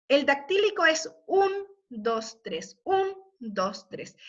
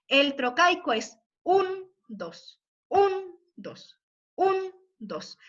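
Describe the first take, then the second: First: "un" marcado y "dos, tres" átonos; ritmo dactílico. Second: "un" fuerte y "dos" débil, como de marcha; ritmo trocaico. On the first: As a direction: pulso de tres tiempos. (marcando "un, dos, tres" con el acento en "un") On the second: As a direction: pulso binario marcado. (marcando "un, dos" como marcha) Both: Shown as a demonstration. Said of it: "marcando claramente ese ritmo".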